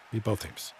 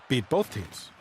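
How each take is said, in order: First: Much softer and lower, muttered to himself; quiet repeat. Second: Said in the usual way. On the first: Real, not acted. Streamer repeating his hope for his team, softly muttered. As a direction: say "both" again under your breath.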